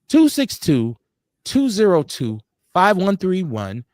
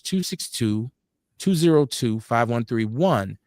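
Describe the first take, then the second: First: The number is read out slowly. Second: The number is read out quickly.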